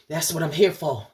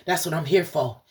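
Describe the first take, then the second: No difference in how they are said.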